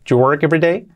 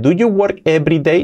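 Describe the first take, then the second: First: The words run together with do you linked. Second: Each word is said separately and carefully. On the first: The speaker calls it right. "pasado al inglés real" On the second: The speaker calls it wrong. "nada de do you work every day?"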